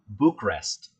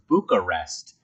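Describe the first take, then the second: First: The middle 'a' syllable is not emphasized. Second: The middle 'a' syllable is emphasized. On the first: "not emphasizing the A in Bucharest" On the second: "I was originally pronouncing it as"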